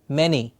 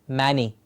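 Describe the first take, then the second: First: The first vowel sounds like the vowel in 'men'. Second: The first vowel sounds like the vowel in 'man'. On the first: The speaker calls it right. "it's men, many" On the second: The speaker calls it wrong. "It's not man and e"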